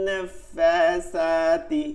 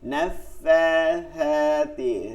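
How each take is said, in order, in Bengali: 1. মধ্যের ব্যঞ্জনবর্ণে একটি অতিরিক্ত হিসের শব্দ যুক্ত থাকে। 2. মধ্যের ব্যঞ্জনবর্ণে কোনো অতিরিক্ত হিসের শব্দ যুক্ত থাকে না। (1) "অনেকেই শব্দ করেন ... এরকম বলেন" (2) "এই তিনটা হরফে কোনো শব্দ আসবে না"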